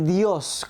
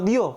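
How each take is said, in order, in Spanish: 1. La palabra termina con sonido s. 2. La palabra termina sin sonido s. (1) "con la S al final" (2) "sin la S"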